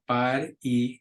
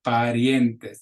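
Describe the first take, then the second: First: Parientes slowly, vowels split as pa-ri-en-tes; mock mistaken parientes; wrong way. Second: Parientes with ie glided into one beat; correct way. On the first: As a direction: overpronounce parientes in separate beats. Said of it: "not parientes". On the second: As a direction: blend the ie in parientes. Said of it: "it's parientes". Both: Shown as a demonstration.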